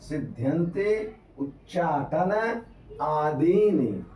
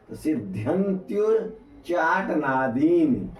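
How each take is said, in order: First: The words are said as separate vowel-ending words. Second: The words are run together with vowels merged.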